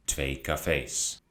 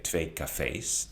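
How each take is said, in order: First: "twee cafés" slow, stress on "fés"; slow plural demo. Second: "twee cafés" slow and soft, stress on "twee"; repeated plural demo. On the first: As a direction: say "twee cafés" slowly, ending on the final s. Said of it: "Eén café". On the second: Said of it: "So earlier I said". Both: Shown as a demonstration.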